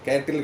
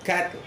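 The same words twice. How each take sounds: First: An extra vowel sound follows the t. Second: The t runs straight into the l. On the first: The speaker calls it wrong. "நீங்கள் வந்து கே கேட்டில்னு சொல்கிறீங்க" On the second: The speaker calls it right. "டாக் அப்புறம் லா மட்டும் தான் சொல்லணுமே"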